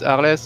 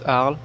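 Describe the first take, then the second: First: The name is pronounced like a Latin word. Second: The name is pronounced like a French word. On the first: "as a La as a Latin word" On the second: "or as a French word"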